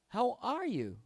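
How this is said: It is said warmly, with a lively question tone. The speaker calls it right. "You're you're happy to see this person ... Question"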